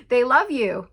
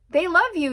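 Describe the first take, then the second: First: Happy announcement. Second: Same words again, much higher and just as loud; excited repeat. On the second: Reader repeating the good news to viewers, higher and thrilled. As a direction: lift it way up the second time with joy. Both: Real, not acted. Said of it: "you guys".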